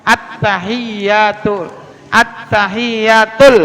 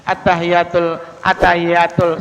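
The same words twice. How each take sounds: First: Slow "Attahiyatul", every doubled letter held; unhurried tasydid. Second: Low, even "attahiyatul" with short single consonants; wrong, no tasydid. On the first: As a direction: take "Attahiyatul" syllable by syllable, pressing t and y. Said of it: "Jangan buru-buru makanya". ("Attahiyatul" pelan, tasydid jelas) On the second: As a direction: run through "attahiyatul" without holding any letter. ("attahiyatul" datar tanpa tasydid) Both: Shown as a demonstration.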